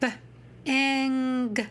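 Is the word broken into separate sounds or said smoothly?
broken. The word is broken into separate sounds. The reader is working the word out.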